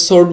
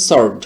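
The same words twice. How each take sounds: First: সোর্ড with a rounded o, "sord"; common pronunciation. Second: সর্ড with an open "aw", "sawrd"; correct pronunciation. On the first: Teacher quotes what people usually say, rounded o. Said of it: "আমরা এটাকে সোর্ড বলে থাকি". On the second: Teacher corrects the usual form, open vowel. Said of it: "এটার সঠিক উচ্চারণটা হচ্ছে". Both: Shown as a demonstration.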